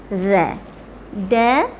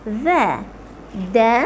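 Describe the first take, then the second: Both takes have the same delivery.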